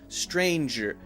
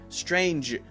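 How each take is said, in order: First: The word has an extra syllable at the end. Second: The word is said as a single syllable. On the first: The speaker calls it wrong. "That's a two-syllable word" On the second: The speaker calls it right. "Should be one"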